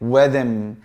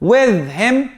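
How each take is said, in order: First: The h sound in him is left out. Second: The h sound in him is pronounced.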